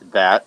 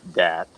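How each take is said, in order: First: The word begins with a th sound. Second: The word begins with a plain d sound. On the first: "That is dat" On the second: "That is dat, you know, D, dat"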